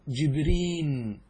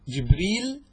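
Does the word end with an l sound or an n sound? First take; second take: n; l. First: The word ends with an n sound. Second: The word ends with an l sound. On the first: "بالنون" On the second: "باللام"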